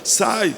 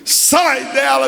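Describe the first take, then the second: First: It is said gently and quietly. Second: It is said forcefully and loudly.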